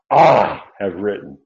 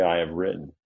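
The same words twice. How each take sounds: First: Long, loud stress on "I"; emphatic pronoun. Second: Said in the usual way. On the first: Shown as a demonstration. Teacher showing Paul's emphasis to listeners, emphatic pronoun. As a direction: lean hard and slow on "I", then ease off. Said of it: "throws that pronoun in front of us, emphatically".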